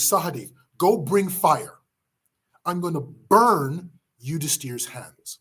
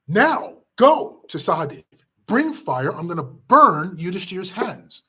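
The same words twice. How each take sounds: First: A touch of contained anger, unhurried; a stern order without raising the voice; slow, stern command. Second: Furious shout. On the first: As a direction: lay down the order slowly and firmly. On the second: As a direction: roar the order at a younger brother. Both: Acted. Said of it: "Bhima shouts at Sahadev".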